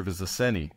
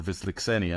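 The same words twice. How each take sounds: First: "Wisliczeny" said with a plain s in the middle; first pronunciation attempt. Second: "Wisliczeny" said with a ks in the middle; alternative pronunciation. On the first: Historian naming the interrogated witness, "Wisliczeny" pronounced viss-luh-SENNY. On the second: Historian unsure of the name, offering "Wisliczeny" as viz-lick-SENNY. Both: Shown as a demonstration. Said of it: "I never know exactly how to pronounce".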